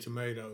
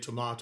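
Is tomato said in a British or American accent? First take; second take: American; British. First: Tomato is said in an American accent. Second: Tomato is said in a British accent.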